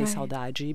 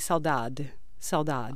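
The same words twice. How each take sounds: First: It is said with a softer Brazilian accent. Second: It is said with a European Portuguese accent. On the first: "we would say saudade because we, in Brazil, we just soften everything" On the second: "in Portugal they would say saudade, because that's their accent"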